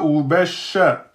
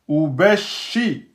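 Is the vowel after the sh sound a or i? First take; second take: a; i. First: The sh sound is followed by an a vowel. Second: The sh sound is followed by an i vowel. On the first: The speaker calls it wrong. "et pas ubasha" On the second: The speaker calls it right. "c'est shi, c'est pas sha"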